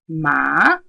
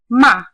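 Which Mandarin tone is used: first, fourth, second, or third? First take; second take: second; fourth. First: It is said with the rising second tone. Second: It is said with the falling fourth tone. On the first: It means hemp. "if I said ma, I now mean hemp" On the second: It means to scold. "the fourth tone"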